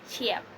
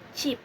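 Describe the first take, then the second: First: The word is broken into two separate parts. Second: The word is said as one unbroken syllable. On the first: The speaker calls it wrong. "not cheap" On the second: The speaker calls it right. "it is only pronounced once"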